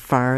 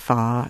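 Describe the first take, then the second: First: The R after the vowel is pronounced. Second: The R after the vowel is dropped. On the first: "Instead of far" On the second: "the lack of a post-vocalic R"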